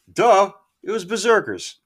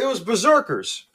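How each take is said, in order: First: A loud, high "Duh" mocking his own forgetfulness; duh, self-mocking. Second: High and loud, blurting out the answer; excited recall. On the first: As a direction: roll your eyes at yourself out loud. Scolds himself for forgetting. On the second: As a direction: blurt it the moment it comes back. Finally names the song. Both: Real, not acted.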